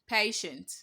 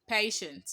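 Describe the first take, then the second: The two takes are said the same way.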